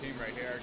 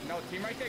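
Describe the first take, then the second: First: Said in the usual way. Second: "there" higher and louder, rising; stress on there. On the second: Real, not acted. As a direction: correct yourself, punch "there".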